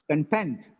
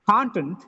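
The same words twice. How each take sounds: First: The stress is on the second syllable. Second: The stress is on the first syllable. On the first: It is used as a verb. "The next one is verb" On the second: It is used as a noun. "First is noun"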